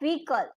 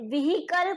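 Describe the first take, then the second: First: The H in the middle is silent. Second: The H in the middle is sounded. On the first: The speaker calls it right. "શું કહેવાય vehicle" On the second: The speaker calls it wrong. "આપણે vehicle કહીએ છીએ ને એ wrong છે"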